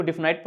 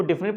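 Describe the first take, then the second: First: डेफिनाइट ending in "nite"; long-i pronunciation. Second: डेफिनेट ending in a short "nit"; short-i pronunciation. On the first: Teacher showing the other reading, डेफिनाइट ending in "nite". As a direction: say डेफिनाइट with the last vowel like "eye". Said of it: "कुछ लोग इसको डेफिनाइट पढ़ते हैं". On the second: Teacher showing how some read the word, डेफिनेट ending in "nit". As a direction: say डेफिनेट with an unstressed "-nit" ending, not "-nite". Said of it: "कुछ लोग इसको डेफिनेट पढ़ते हैं". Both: Shown as a demonstration.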